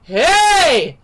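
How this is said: The shout is full and uses the whole body.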